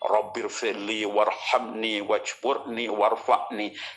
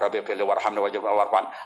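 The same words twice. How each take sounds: First: It is recited slowly and devoutly. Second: It is recited quickly and hurriedly.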